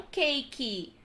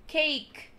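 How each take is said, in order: First: Cake said as cakey; extra final vowel. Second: Cake ending on the k; silent e. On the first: Teacher showing the wrong cake. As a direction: add an i sound after the k in cake. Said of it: "não". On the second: Teacher modelling cake with no final vowel. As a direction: stop cake at the k sound. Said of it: "encerrasse no K". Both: Shown as a demonstration.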